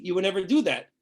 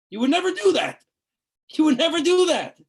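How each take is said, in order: First: Said in the usual way. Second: Emphatic. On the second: Real, not acted. Emphatic rebuke to listeners.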